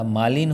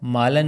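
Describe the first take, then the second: First: मालिन ending in "lin"; short "i" in the end of मालिन; correct form. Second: मालन ending in "lan"; short "a" in the end of मालन; wrong form. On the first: Teacher gives students the right word, firm. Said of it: "होता है". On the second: Teacher shows students the faulty word, emphatic. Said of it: "नहीं होता". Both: Shown as a demonstration.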